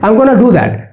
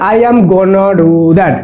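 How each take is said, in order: First: "I am" is contracted to one syllable. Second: "I am" is said as two full words. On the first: The speaker calls it right. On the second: The speaker calls it wrong.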